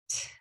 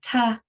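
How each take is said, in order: First: The t is a bare, voiceless puff. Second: The t is followed by a short vowel. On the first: The speaker calls it right. "It's just T" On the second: The speaker calls it wrong. "It's not ta"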